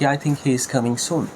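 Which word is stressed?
none. No word gets special stress. A plain statement that he is coming soon. "খুব সাধারণভাবে"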